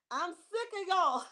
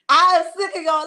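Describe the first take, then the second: First: Laughing it out, slow and teasing; playful complaint through a laugh. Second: Loud, playful mock outrage; mock yell. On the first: Real, not acted. Host teasing chat viewers while laughing. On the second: Host mock-yelling at viewers who hid their page. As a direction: blast it at the chat in fun. Repeats the complaint much louder.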